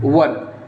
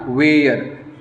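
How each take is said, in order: First: The vowel is a short central 'ur' sound. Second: The vowel is a drawn-out 'air' sound. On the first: The speaker calls it right. "इसे हम लोग वर पढ़ते हैं।" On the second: The speaker calls it wrong. "वेयर गलत pronunciation है"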